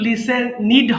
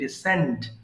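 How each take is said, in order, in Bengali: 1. শেষে বাড়তি একটা সিলেবল আছে, যেমন 'id'। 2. শেষে সাধারণ একটা ব্যঞ্জন আছে, আলাদা কোনো সিলেবল নেই। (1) "এখানে কিন্তু লিসেন নিড হবে না" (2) "আদারওয়াইজ এটা সিম্পলি লিসেন্ড"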